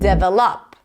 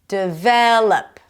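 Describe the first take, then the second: First: The stress is on the first syllable. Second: The stress is on the second syllable. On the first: The speaker calls it wrong. "Not develop" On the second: The speaker calls it right. "Second syllable"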